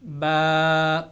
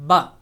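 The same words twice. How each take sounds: First: با held long, vowel stretched out; stretched long baa. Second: با said short, no stretch on the vowel; short unstretched ba. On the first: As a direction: draw out the a in با. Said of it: "با کھڑی زبر". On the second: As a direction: clip the vowel in با. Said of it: "زبر کو کھینچا نہیں جائے گا". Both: Shown as a demonstration.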